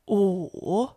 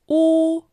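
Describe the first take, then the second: First: The pitch dips low, then rises. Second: The pitch stays high and level.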